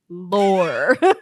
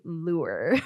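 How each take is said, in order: First: The word is said with an 'or' vowel. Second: The word is said with an 'oo' vowel. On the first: The speaker calls it right. "but lore" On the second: The speaker calls it wrong. "I always wanna say lure"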